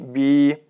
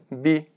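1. Гласный долгий. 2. Гласный краткий. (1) "но не" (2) "Нужно произносить коротко"

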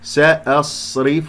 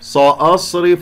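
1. الحرف الأول سين عادية خفيفة. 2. الحرف الأول سين مفخمة ثقيلة.

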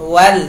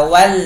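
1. พยางค์นี้ออกเสียงบางและเบา 2. พยางค์นี้ออกเสียงบางและเบา

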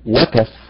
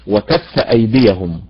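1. يقع النبر على مقطع الواو. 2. يقع النبر على مقطع الكاف. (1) "اذا قلنا على حركة الواو سنقول وكف، اصبح فعل ماضي" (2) "اما وكف هي الواو زائد ايه؟ زائد كف"

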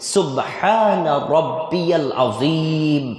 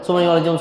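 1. বাক্যের প্রতিটি শব্দ স্পষ্টভাবে বলা হয়। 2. বাক্যটি তাড়াহুড়ো করে জড়িয়ে কম অক্ষরে বলা হয়। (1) "সে রুকুতে গিয়ে আল্লাহর মহানত্ব ঘোষণা করছে" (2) "কিন্তু আমরা তো এভাবে বলি না"

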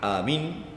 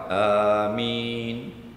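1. Vokal-vokalnya dipotong lebih pendek dari biasanya. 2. Vokal-vokalnya ditahan selama hitungan pendek yang merata. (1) "Yang salah" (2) "itu dua harakat"

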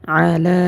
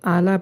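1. প্রথম ধ্বনিটি গলার মাঝখান থেকে চাপ দিয়ে বের করা হয়। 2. প্রথম ধ্বনিটি একটি সাধারণ স্বরের শুরু। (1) "হলকের মধ্যখান থেকে উচ্চারণ করতে হবে, যেমন আলা" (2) "অনেকে এখানে আলা পড়ে, যদি আলা পড়ে তাহলে সহি শুদ্ধ হবে না"

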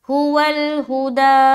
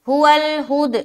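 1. अंतिम स्वर लंबा खींचा जाता है। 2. अंतिम स्वर गिराकर काट दिया जाता है।

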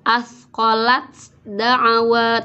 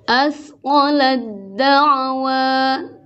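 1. Bunyi t diucapkan terpisah sebelum d. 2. Bunyi t menyatu sepenuhnya ke dalam d yang mengikutinya. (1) "tidak asqalat da'wa" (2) "langsung ke dal"

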